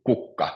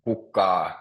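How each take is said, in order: First: KUK-ka, stressed at the start; first-syllable stress. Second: Kuk-KA, stress moved onto the final syllable; wrong-syllable stress. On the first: Teacher repeats the Finnish word for flower, stress on first syllable. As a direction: say kukka with the weight on KUK. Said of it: "it's always on the first syllable". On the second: Teacher shows what you wouldn't say, stress on last syllable. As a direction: say kukka with a weighted, drawn-out final A. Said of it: "you wouldn't say". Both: Shown as a demonstration.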